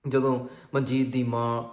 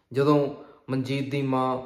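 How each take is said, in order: Both takes have the same delivery.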